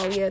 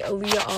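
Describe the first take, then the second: First: Alia said AH-lee-uh, stress on the first syllable; Alia pronunciation. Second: Aaliyah said as uh-LEE-yah, stress on the middle; the Americanized Aaliyah, stress on LEE; Aaliyah pronunciation. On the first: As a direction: say Alia short, with the weight on AH. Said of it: "that's not my name". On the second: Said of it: "None of that is my name". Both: Retold or imitated.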